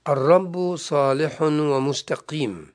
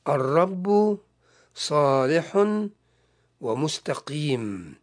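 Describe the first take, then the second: First: The verse is read at a normal pace. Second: The verse is read slowly and deliberately.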